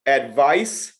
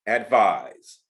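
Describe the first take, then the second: First: "Advice" ending in a crisp s, pitch rising; careful word contrast. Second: "advise" ending in a buzzed z, lower pitch; careful word contrast. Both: Shown as a demonstration. Teacher contrasting confusable words for students, careful pronunciation. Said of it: "the one that get most people in trouble".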